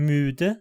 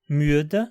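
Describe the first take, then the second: No difference in how they are said.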